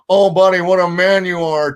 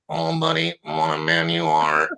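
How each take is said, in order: First: The impression sounds only slightly worn and raspy. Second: The impression sounds extremely worn and raspy.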